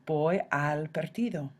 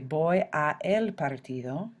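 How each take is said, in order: First: The words 'a' and 'el' merge into 'al'. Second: The words 'a' and 'el' are said separately. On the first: The speaker calls it right. "you contract them" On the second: The speaker calls it wrong. "you don't say voy a el partido"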